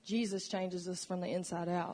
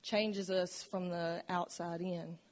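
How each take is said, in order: First: Emphatic close of the contrast with "inside out"; answering contrast. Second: Deliberate sermon emphasis on "outside in"; slow, weighted contrast. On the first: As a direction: stress on inside out. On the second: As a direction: stress on outside in, said slowly. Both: Shown as a demonstration. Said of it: "You see, religion".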